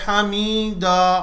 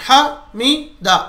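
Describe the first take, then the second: First: The sound after the m is drawn out. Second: The syllables come out in separate jerks. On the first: "अगर कोई मीम के बाद खींच दे तो गलत। अगर कोई कहे हामीदा, नहीं" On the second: "ऐसा झटके झटके भी नहीं देना, हामीदा ऐसा भी नहीं, गलत है।"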